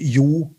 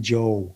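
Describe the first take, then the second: First: The name is pronounced the Norwegian way. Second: The name is pronounced the English way. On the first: It is the original form of the name. "which is the Norwegian uh, uh, pronunciation" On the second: It is the simpler form used abroad. "but he would also call me Joe"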